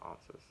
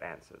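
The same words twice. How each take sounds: First: The word is said with a British accent. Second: The word is said with an American accent. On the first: This is what the visitor actually said. "not answers" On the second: This is what the listener expected to hear. "She wanted answers"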